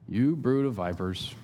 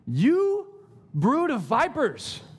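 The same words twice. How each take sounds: First: It is said in a mild, casual tone. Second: It is said in a forceful, exclaiming tone. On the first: The speaker calls it wrong. "I don't think he was like" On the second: The speaker calls it right. "Exclamation point"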